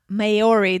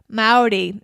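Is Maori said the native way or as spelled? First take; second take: as spelled; native. First: The word has a literal English-reading pronunciation. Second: The word has its native-style pronunciation. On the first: The speaker calls it wrong. "not Maori, the way it's spelled" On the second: The speaker calls it right. "pronounced kind of like Maori"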